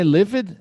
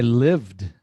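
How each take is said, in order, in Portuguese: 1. O final é pronunciado como uma sílaba extra. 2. O final se junta direto, sem sílaba extra. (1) "Mas é livid? Não" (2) "vai direto"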